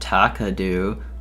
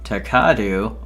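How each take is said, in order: First: The stress is on the first syllable. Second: The stress is on the second syllable. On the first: "it really depends on where the where the emphasis is" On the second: "I feel like it's the second one"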